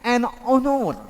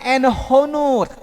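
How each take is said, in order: First: Honor is said with no h sound at the start. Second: Honor is said with an h sound at the start. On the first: The speaker calls it right. "tapi en honor" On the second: The speaker calls it wrong. "Bukan en honor, ya, bukan h"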